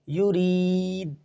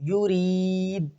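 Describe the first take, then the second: Both takes have the same delivery.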